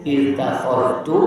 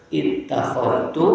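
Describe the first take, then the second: The two takes are said the same way.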